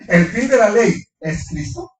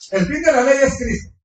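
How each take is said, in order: First: It is said as a rising question. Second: It is said as a flat statement.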